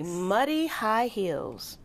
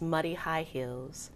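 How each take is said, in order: First: The phrase is said slowly and deliberately. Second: The phrase is said at a normal pace.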